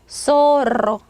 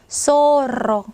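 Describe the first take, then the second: Both takes have the same delivery.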